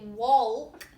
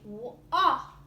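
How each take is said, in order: First: The L sound is clearly pronounced. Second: The L sound is not pronounced. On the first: The speaker calls it wrong. "I don't say walk" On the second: The speaker calls it right. "I say walk. You don't hear the L"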